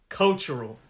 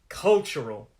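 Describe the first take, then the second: Both takes have the same delivery.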